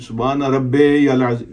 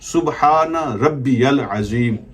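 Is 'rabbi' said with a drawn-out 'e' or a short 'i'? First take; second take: drawn-out e; short i. First: Rabbi ends in a drawn-out 'e' sound. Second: Rabbi has a short 'i' linked onward. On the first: The speaker calls it wrong. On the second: The speaker calls it right.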